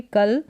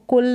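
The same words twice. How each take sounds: First: "कल" with a short uh vowel, kuhl; correct reading of cul. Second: "कुल" with an oo vowel, kul as in pull; wrong reading of cul. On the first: Teacher showing how c-u-l is read, short-uh "कल". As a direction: say "कल" with unrounded uh. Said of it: "इसको कल पढ़ेंगे". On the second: Teacher showing how not to read c-u-l, rounded "कुल". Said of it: "इसको कुल नहीं पढ़ेंगे". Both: Shown as a demonstration.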